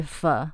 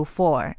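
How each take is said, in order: First: "for" reduced to a quick "fer" with a schwa; weak for. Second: "for" said in its full form, like "four". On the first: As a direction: swallow the vowel in "for", light and fast. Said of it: "不是读for，而是for". (弱读"for"，轻而短，像"fer") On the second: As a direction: give "for" its full, unreduced vowel. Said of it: "小心，F O R，for这个字在句". (完整读出"for"，元音饱满) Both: Shown as a demonstration.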